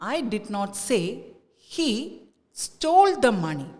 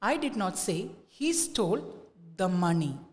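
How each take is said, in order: First: The stress falls on the word stole. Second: The stress falls on the word money. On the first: "Now let us give the stress to stole" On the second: "Now let us give the stress to money"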